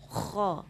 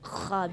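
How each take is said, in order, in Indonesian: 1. Bunyi kh itu berat dan terangkat. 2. Bunyi kh itu ringan dan datar. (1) "Itu harus ditinggikan ya" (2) "jangan kayak kha biasa"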